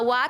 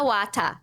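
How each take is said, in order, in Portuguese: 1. Termina no som de t. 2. Vem uma vogal extra depois do t final. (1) "Em vez de falar what" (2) "o italiano bota um A no final"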